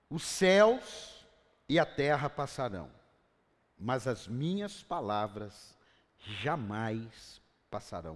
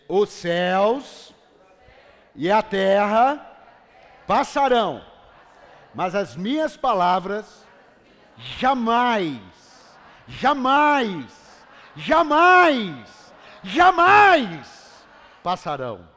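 First: It is read in a calm, plain way. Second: It is read excitedly, like celebrating a win.

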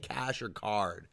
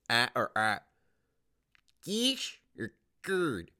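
First: The last word's vowel sounds like card. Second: The last word's vowel sounds like curd. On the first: The speaker calls it right. "just fucking say cash or card" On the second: The speaker calls it wrong. "Why are you saying it's cash or card? Cash or curd?"

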